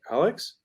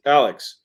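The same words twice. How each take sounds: First: "Alex" with a high rising end; tentative rising "Alex?"; questioning name call. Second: Short, loud "Alex" with a falling end; punched, falling "Alex"; sharp name call. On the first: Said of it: "Are you there?". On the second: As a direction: say "Alex" hard and quick, dropping off. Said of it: "Those are all very different". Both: Shown as a demonstration.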